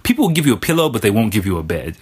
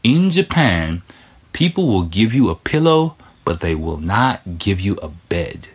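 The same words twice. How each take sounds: First: Fast, tossed-off line; quick first telling. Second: Slowed down, with weight on "not" in "will not give you a bed"; slow emphatic restatement. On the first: Saying the pillow line quickly before repeating it. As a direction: rattle it off quickly the first time. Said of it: "think about it". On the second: Repeating the pillow line for listeners, slow and emphatic. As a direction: deliver it slowly like a quotable gem, stressing "not". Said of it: "that's a diamond for you right there". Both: Shown as a demonstration.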